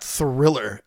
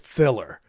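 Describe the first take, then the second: First: The first R sound is clearly pronounced. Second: The first R sound is left out. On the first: This is the usual way to say it. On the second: This is how the singer says it.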